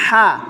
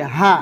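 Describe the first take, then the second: First: হা from the middle of the throat, tighter and raspier; mid-throat হা, raspy; mid-throat sound demo. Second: হা from deep in the throat, breathy and low; throat sound demo. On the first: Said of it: "আর এই হায়ের উচ্চারণ হচ্ছে ... হলকের মাঝখান থেকে". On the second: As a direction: say হা from the start of the throat. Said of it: "এই হায়ের উচ্চারণ হলো হলকের শুরু থেকে". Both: Shown as a demonstration.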